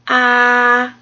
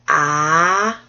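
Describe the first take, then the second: First: The pitch stays high and level. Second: The pitch rises from middle to high. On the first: "there's one that's just straight across and it's high" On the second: "another one that goes up"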